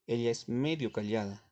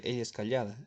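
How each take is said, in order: First: "medio" lifted and weighted as the key word; stress on medio. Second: Said in the usual way. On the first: Shown as a demonstration. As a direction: lean on "medio" to show the adverb. (énfasis en "medio") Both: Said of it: "Porque puedo decir".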